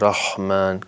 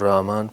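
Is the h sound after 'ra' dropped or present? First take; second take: present; dropped. First: The throaty h sound is clearly pronounced. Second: The h is replaced by a plain vowel onset. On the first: The speaker calls it right. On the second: The speaker calls it wrong.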